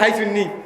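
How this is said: It begins with a breathy h sound. This is how people around Brahmanbaria say it. "ব্রাহ্মণবাড়ির দিকে হাইসুন্নি"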